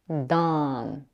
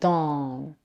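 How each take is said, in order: First: The vowel is said with unrounded lips. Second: The vowel is said with rounded lips.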